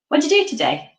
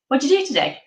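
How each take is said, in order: Both takes have the same delivery.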